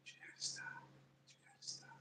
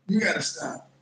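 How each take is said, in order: First: Whispered. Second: Said in the usual way. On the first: Real, not acted. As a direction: drop to a whisper. Repeats line, then whispers.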